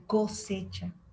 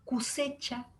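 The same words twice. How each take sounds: First: The first vowel is pronounced o. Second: The first vowel is pronounced u. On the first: This is the standard Spanish form. "en lugar de" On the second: This is the immigrant cocoliche way of speaking. "la O por la U"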